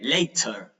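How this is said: The middle consonant is a clear t. "English people from the U K ... It's like a T instead of a D"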